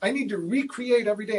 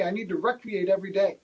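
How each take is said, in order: First: Recreate said ree-create, long ee then create. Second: Recreate said REC-ree-ate, short e like recreation; rec-reate. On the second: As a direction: recreate with short e, stress on first syllable. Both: Shown as a demonstration. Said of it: "the word recreate or recreate".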